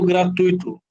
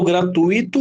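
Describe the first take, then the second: First: "gratuito" with UI joined in one syllable; three-syllable "gratuito", gliding from U into I; diphthong pronunciation. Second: "gratuito" with I stressed as its own syllable; four-syllable "gratuito", stress on the I; hiatus pronunciation. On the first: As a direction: say "gratuito" as gra-TÚI-to, stress on the U. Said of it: "ou separando a letra I, ou se-, ou juntando". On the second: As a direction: say "gratuito" as gra-tu-Í-to, splitting U and I. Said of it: "eu falo gratuito ou eu falo". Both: Shown as a demonstration.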